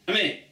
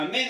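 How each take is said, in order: First: "amém" chopped at the end; final N cut off. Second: Said in the usual way. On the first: Shown as a demonstration. Teacher demonstrating the wrong response, "amém" with the ending cut. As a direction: say "amém" without sounding its final nasal. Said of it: "o n no final". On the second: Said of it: "Em vez de falar amém".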